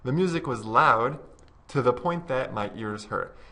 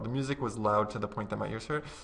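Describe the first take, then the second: First: There is a short pause after 'loud'. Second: It is said quickly without any pause. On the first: The speaker calls it right. "I would recommend actually maybe even putting a pause" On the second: The speaker calls it wrong. "If you say it really quickly, it sounds a little bit unnatural"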